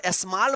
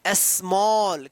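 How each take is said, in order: First: स्मॉल said as smal with flat a; स्मॉल, flat a vowel; wrong pronunciation. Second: Slow स्मॉल with rounded aw; स्मॉल drawn out with aw sound; correct pronunciation. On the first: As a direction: show the wrong स्मॉल with a short a. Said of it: "मत पढ़िएगा". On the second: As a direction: stretch स्मॉल, esmɔl, long open o. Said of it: "क्या पढ़ना है". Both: Shown as a demonstration.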